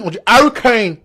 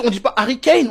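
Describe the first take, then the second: First: "Harry Kane" in exaggerated English; mock English accent. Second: Said in the usual way. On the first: English fans correcting the name, mock English accent. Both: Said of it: "Si les Anglais disent".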